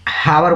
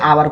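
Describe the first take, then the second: First: The word starts with an audible h sound. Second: The word starts with a vowel, no h sound. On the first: The speaker calls it wrong. "हावर बोल देते हैं, तो ये गलत है" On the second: The speaker calls it right. "आवर को भी आ"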